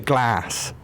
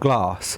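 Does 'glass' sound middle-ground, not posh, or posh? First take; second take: middle-ground; not posh. First: The word is said in an in-between accent. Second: The word is said in a non-posh accent. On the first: The speaker avoids picking either side. "I go for like the middle ground" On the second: The speaker belongs to the non-posh group. "or you're not posh"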